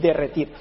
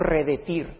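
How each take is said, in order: First: The word begins with 'de', then 'rre'. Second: The word begins with 're', then 'de'. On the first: The speaker calls it right. "es derretir" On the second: The speaker calls it wrong. "dijo uno, redetir, pero no se dice redetir"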